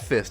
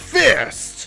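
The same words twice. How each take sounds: First: The word is said plainly, without extra force. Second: The word is said loudly, with punchy force. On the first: The speaker calls it wrong. "It's not Fist" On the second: The speaker calls it right. "it's Fist!"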